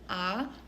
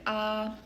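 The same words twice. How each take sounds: First: The pitch rises from middle to high. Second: The pitch stays high and level. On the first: "Second tone is the rising tone" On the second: "First tone is the high and flat tone"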